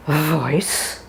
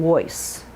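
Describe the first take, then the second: First: "Voice" begun with a clear buzzing v; teacher models a clear v in "Voice"; right, clear v. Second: "voice" begun with a w; teacher shows the mistake in "voice"; wrong, w sound. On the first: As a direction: lots of airflow into the v. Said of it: "Make sure it's a V". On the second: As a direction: show the w error. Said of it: "Make sure you're not saying voice". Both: Shown as a demonstration.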